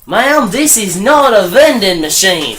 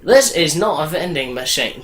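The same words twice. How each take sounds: First: Slow, higher mock Australian accent; attempted Australian accent. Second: Put-on failed Australian accent, sounding British. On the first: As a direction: lay on a fake Australian accent slowly. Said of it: "That was a terrible Australian accent". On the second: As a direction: aim at Australian, land nearer British. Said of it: "That sounds more British".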